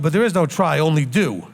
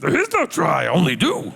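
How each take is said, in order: First: It is said in his normal voice. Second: It is said in a Yoda voice.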